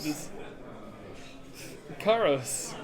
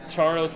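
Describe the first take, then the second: First: The name begins with a hard k sound. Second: The name begins with a ch sound. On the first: The speaker calls it right. "Just Caros. K" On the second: The speaker calls it wrong. "Charos like Charmander?"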